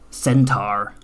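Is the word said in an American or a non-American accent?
American. The word is said in an American accent.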